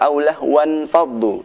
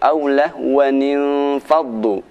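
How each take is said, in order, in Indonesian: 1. Kata itu berakhir dengan 'wan' sebelum faddu. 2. Suku kata 'nin' ekstra menyambung ke faddu. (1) "Tidak benar jika dibaca"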